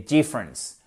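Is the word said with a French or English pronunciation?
English. It is said with English pronunciation. The speaker calls it right. "c'est difference"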